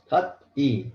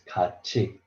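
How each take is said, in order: First: A t sound, then a separate e sound. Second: A ch sound linked into the final vowel. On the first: The speaker calls it wrong. "Kat E is very hard to pronounce" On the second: The speaker calls it right. "T sound change to C H sound. So you have to read like this"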